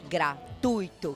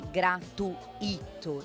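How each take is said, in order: First: The u and i form one syllable. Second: The u and i are split into two syllables. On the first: The speaker calls it right. "eu tenho um ditongo, é gratuito" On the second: The speaker calls it wrong. "A separação dela não é gratuito. Eu não tenho hiato"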